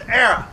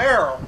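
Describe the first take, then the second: First: "arrow" said as "AIR-uh"; loud, corrective "arrow" with an uh ending; folksy pronunciation of arrow. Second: Said in the usual way. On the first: Shown as a demonstration. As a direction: end "arrow" on a short uh, not oh. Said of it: "it's arrow". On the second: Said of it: "it's not arrow".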